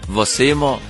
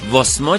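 First: The vowel at the end of vase is kept. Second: The vowel at the end of vas is dropped. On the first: The speaker calls it right. "واسه ماست" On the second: The speaker calls it wrong. "خواهش میکنم که الکی ساکن نذارید روی برخی از واک ها"

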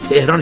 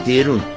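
First: The second syllable has an 'ah' vowel. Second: The second syllable has an 'oo' vowel. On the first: This is how the speaker's own group says it. "ما میگیم تهران" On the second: This is how the listener's group says it. "شما میگی تهرون"

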